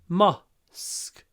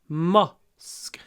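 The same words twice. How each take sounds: Both takes have the same delivery.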